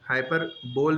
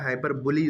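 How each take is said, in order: First: The word ends with a single syllable 'bol'. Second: The word ends with two syllables 'buh-lee'. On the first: The speaker calls it wrong. "हाइपर बोल नहीं होता" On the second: The speaker calls it right. "हाइपर बुली इसको पढ़ते हैं"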